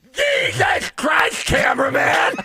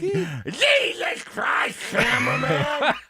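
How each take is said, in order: First: High, slow, raspy startled yell; shouted coach impression; Lou Holtz yelling. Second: High, very slow shouted coach impression; hammed-up Lou Holtz shout; Lou Holtz yelling. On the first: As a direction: bark it like a startled old coach. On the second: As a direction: stretch the yell like a startled coach. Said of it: "Give me the cameraman one more time".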